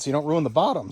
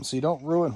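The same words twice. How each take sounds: First: Said in the usual way. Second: Voice cracking. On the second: Real, not acted. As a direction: voice cracks on ruin. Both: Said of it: "oh, my voice cracked".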